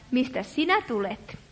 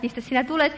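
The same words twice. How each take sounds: First: Low, soft mock voice for God; a mock-solemn low murmur; wrong voice for God. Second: Said in the usual way. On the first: Shown as a demonstration. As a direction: drop it low and quiet, the way God did not say it. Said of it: "ei Jumala sano tällä äänellä". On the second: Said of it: "Hän sanoi sen ihan oikealla äänellä".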